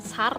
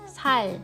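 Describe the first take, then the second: First: The word ends with an R sound. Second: The word ends with an L sound. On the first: The speaker calls it wrong. "jangan R, jangan sar" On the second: The speaker calls it right. "bacanya L ya"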